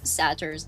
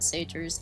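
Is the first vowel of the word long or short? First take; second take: short; long. First: The first vowel is a short A. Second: The first vowel is a long A. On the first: "I'm doing the short A" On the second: "not satyrs"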